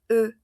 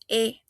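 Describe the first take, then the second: First: The vowel is said with lips rounded like u. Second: The vowel is a plain e with spread lips. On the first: The speaker calls it right. "decimos E" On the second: The speaker calls it wrong. "No decimos E"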